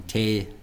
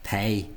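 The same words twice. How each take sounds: First: "tay" with a drawn-out English glide; wrong form imitation. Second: "Tay" as an Irish long "tay", unlike the clip; corrected pronunciation. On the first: Teacher showing what to avoid, gliding "tay". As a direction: stretch "tay" slowly into ay-ee. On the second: Teacher contrasting with the clip, slow "Tay". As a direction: hold the vowel of "Tay" slowly. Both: Shown as a demonstration. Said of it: "rather than tay".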